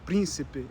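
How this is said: The unstressed vowels are shortened and weakened. This is how it is said in Portugal. "but príncipe in Portugal"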